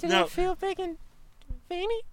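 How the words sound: It is said in a polite customer-service voice. "I'll use my customer service voice"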